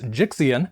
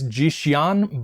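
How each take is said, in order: First: The name is pronounced with plain English sounds. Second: The name is pronounced with Chinese-like sounds. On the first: "as an English speaker, I also kind of want to pronounce it as Jixian" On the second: "I want to say it's Jixian, but I'm probably getting that incorrect"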